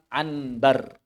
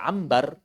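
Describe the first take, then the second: First: An n sound comes before the b. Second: An m sound comes before the b. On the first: "ada kalimat anbar" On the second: "ya mereka baca ambar"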